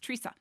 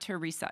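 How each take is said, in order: First: The name is said with two syllables. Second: The name is said with three syllables. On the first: The speaker calls it right. "it's only two syllables" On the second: The speaker calls it wrong. "not three. Not Teresa"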